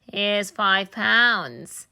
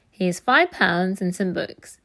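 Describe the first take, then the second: First: Very slow, savoured gloat; a greedy thief relishing found money, drawn out. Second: Said in the usual way. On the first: A narrator's reading.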